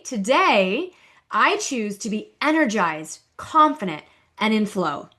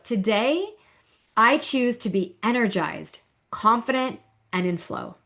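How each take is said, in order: First: It is said a little louder. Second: It is said at normal volume.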